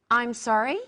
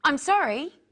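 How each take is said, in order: First: Said in the usual way. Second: "I'm sorry" higher and louder; a clear model apology. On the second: Shown as a demonstration. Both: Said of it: "Practice with me the different ways".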